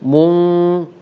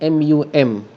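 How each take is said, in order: First: The syllable ends in a held nasal hum. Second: The syllable ends in a plain m sound. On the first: The speaker calls it right. "tetapi mung" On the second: The speaker calls it wrong. "bukan mum"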